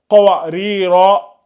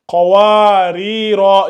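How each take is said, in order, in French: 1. La voyelle après le w est gardée courte. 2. La voyelle après le w est allongée. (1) "Sinon, si tu dis qawarira" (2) "Il faut bien faire le mad bil alif là"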